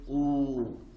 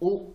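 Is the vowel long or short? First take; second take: long; short. First: The vowel is drawn out long. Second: The vowel is said short. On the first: It is a long vowel. "on va les allonger" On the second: It is a short vowel. "Au lieu de lire O"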